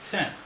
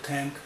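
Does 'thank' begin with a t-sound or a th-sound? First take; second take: th-sound; t-sound. First: It begins with the tongue between the teeth. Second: It begins with a hard t-like sound. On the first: The speaker calls it right. "जीभ को ऊपर और नीचे दोनों दांतों के बीच में ला करके" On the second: The speaker calls it wrong. "आप इसका उच्चारण करेंगे थैंक"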